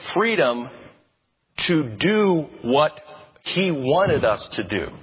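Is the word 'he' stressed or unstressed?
unstressed. The word he carries no special stress.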